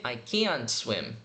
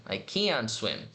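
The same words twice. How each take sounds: First: "can't" slow with the final T said clearly; slow, let the T of "can't" be heard; careful can't with a clear T; marked T. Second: Said in the usual way. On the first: Shown as a demonstration. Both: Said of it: "Ou se quiser marcar o T".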